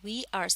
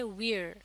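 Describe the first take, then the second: First: It is said as two separate words. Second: It is said as one contracted word. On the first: "वी आर से" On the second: "बन जाता है we're"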